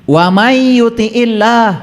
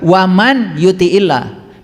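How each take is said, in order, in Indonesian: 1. Bunyi n menyatu dengan bunyi y. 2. Bunyi n diucapkan jelas sebelum y. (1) "nun mati ketemu ya" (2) "tidak dibaca"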